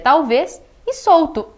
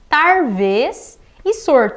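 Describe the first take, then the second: First: An L sound is used in both words. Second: An R sound replaces the L in both words. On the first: "Seria talvez e solto" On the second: "A pessoa trocou aqui o R pelo L"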